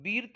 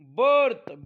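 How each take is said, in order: First: The vowel is an i sound. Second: The vowel is an er sound. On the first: The speaker calls it wrong. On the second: The speaker calls it right.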